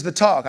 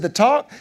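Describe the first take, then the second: First: Said in the usual way. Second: High, rising disbelief on "The talk?"; startled question. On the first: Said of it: "She goes". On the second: Retold or imitated. Dad startled when wife says he must have the talk. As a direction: echo "The talk?" with a sharp upward rise, caught off guard. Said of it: "I said".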